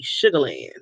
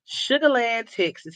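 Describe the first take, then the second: First: Savoring the name. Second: Said in the usual way. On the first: Shown as a demonstration. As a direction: relish "Sugar Land" low and dreamy, like a happy place. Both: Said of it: "something about saying Sugar Land".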